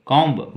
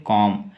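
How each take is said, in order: First: कॉम्ब with a "b" released after the m; sounded final B. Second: कॉम said as "kom", with no b; silent final B. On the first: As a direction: wrongly voice the silent B in कॉम्ब. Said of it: "ब नहीं". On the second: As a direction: end कॉम on the m. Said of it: "ब का pronunciation बी का नहीं करेंगे". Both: Shown as a demonstration.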